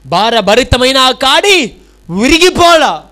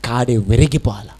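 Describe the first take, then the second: First: Louder, higher and slow, each word weighted; emphatic repeat. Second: Said in the usual way. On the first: Shown as a demonstration. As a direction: hammer the line home to the congregation. (గట్టిగా, నెమ్మదిగా నొక్కి చెప్పడం) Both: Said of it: "ఏమంటున్నాడు?".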